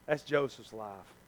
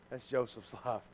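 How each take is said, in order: Both takes have the same delivery.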